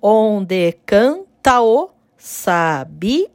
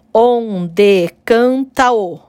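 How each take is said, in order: First: "Onde canta o sabiá" slow, "canta o" merged, stop at "sabiá"; scanning slowly. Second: "Onde canta o" stretched slowly, "canta o" run together; scanning slowly. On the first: Teacher to students, demonstrating elision slowly in the verse. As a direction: stretch "Onde canta o sabiá" beat by beat, joining "canta" and "o". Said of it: "Vai juntar com o próximo o". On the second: Teacher scanning the second verse slowly for students. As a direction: draw out "Onde canta o", merging "canta" into "o". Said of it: "O segundo verso, ó". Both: Shown as a demonstration.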